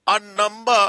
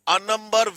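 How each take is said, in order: Both takes have the same delivery.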